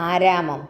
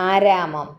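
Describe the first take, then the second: The two takes are said the same way.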